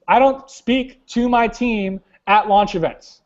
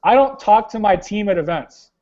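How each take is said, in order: First: DONT pressed, the line slowed right down; slow stressed quote. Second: Said in the usual way. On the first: Retold or imitated. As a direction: drag out "don't" and lean on it. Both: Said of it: "He says".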